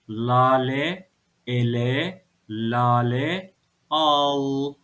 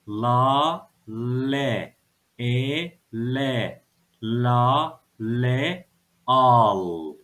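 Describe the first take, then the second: First: It is read quickly as whole words. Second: It is read slowly, syllable by syllable. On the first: "Hadi hızlıca okuyalım" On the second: "Bir kere daha okuyorum"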